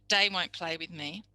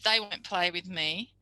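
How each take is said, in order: First: 'They' begins with a d sound. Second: 'They' begins with a voiced th sound. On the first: The speaker calls it wrong. "They changing to day" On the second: The speaker calls it right. "the th voiced is correct"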